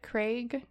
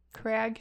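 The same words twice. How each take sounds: First: Craig said as KRAYG, the vowel as in day, rising; Craig with long a. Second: Crag said KRAG, the vowel as in bag; Crag with short a. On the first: Trying out Craig as KRAYG, unsure of the town name. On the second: Weighing the town name, now saying Crag with short a. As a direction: other option: Crag, short a like crag of rock. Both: Shown as a demonstration. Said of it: "I think that's how you say it".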